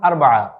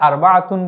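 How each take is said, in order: First: The word ends without the tun syllable. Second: The word ends with a final tun syllable. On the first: This is the everyday spoken form. "কথ্য ভাষায় আমরা যখন বলবো তখন আরবাআ এভাবে বলে যাই" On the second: This is the full formal form. "আমরা উচ্চারণ করার সময় এটিকে আরবাআতুন বলি"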